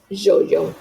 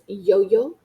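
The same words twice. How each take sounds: First: It begins with a 'zh'-like sound. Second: It begins with an English-like 'y' sound. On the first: This is how it sounds farther south in the Americas. "the further south you go, the more ja it becomes" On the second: This is how it sounds farther north in the Americas. "the farther north in the Americas you go, the more ya it is"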